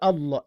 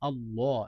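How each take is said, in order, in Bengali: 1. শব্দটি কাটা ভাবে শেষ হয়, শেষে কোনো স্বরধ্বনি ছাড়া। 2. শব্দটি পূর্ণ শেষ স্বরধ্বনি দিয়ে শেষ হয়। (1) "ইয়া আল্লাহ বলবেন না" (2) "হ্যাঁ, পুর করে পড়বেন"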